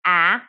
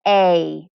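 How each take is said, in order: First: The vowel is a short sound, as in apple. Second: The vowel is said as its letter name. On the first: "short version" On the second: "long vowels are pronounced by saying their own name"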